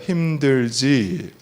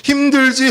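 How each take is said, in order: First: Gentle empathy. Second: Said in the usual way. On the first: Shown as a demonstration. Pastor showing the congregation how to comfort someone, slow and tender. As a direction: ask it like sitting down beside them. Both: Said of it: "따라해보세요".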